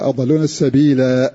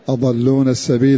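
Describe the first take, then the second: First: The last word ends with a long a vowel. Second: The last word ends on l, without long a. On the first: This reading keeps the final alif. "أثبتوها وصلا ووقفا" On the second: This reading drops the final alif. "حذفاها وصلا ووقفا"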